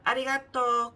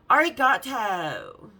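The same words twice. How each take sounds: First: It is said with a native Japanese accent. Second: It is said in a California Valley girl accent.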